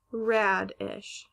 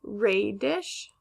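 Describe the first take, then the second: First: "radish" as RAD-ish; short A. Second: "Radish" as RAY-dish, rising; long A. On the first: Teacher asking how to pronounce it, "radish" as rad-ish. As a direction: say "radish" with the a of cat. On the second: Teacher asking how to pronounce it, "Radish" as ray-dish. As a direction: say "Radish" with the a of day. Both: Shown as a demonstration. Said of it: "How would we pronounce this word".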